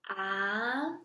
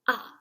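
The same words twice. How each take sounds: First: The pitch rises from low to high. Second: The pitch falls from high to low. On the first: "The second tone is a rising tone" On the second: "The fourth tone is a falling tone"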